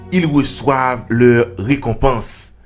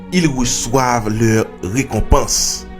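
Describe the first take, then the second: The two takes are said the same way.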